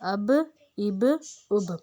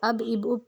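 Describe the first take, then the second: First: The final b is released with an echoing bounce. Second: The final b is held without an echoing bounce. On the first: The speaker calls it right. "इसमें हमने ज़बान को हिलाना है" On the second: The speaker calls it wrong. "अब इब उब पढ़ेंगे तो ये गलत हो जाएगा"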